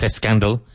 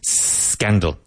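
First: An extra vowel sound comes before the s. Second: The word begins directly with the s sound. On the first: The speaker calls it wrong. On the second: The speaker calls it right. "careful of the pronunciation"

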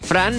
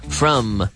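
First: The vowel is an open 'a' as in 'Fran'. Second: The vowel is a short 'uh' as in 'from'. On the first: The speaker calls it wrong. "Notice I'm not saying Fran. Fran, no" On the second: The speaker calls it right.

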